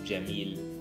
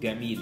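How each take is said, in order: First: The word begins with a soft j sound. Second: The word begins with a hard g sound. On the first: This is the standard Arabic pronunciation. "normal Arabic has the letter Jim, so they pronounce it Jim" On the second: This is the Egyptian pronunciation. "We say Gamil instead of Jamil"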